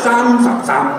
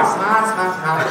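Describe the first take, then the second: First: Slow 三撒三 as Cantonese saam-sap-saam, lips shut after each; exaggerated Cantonese lip closures in 三撒三; lips closed three times. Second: Slow 擦擦擦, every syllable left open-mouthed; drawn-out open endings on 擦擦擦; no lip closure. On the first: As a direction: drag out 三撒三, closing each syllable on m or p. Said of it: "你得闭三回嘴". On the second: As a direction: botch Cantonese 三十三 as open 擦擦擦, no final m or p. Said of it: "不闭嘴那不是广东话". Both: Shown as a demonstration.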